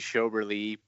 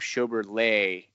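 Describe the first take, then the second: First: The stress is on the first syllable. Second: The stress is on the last syllable. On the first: The speaker calls it right. "It's actually" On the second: The speaker calls it wrong. "I kind of like that accent on the end"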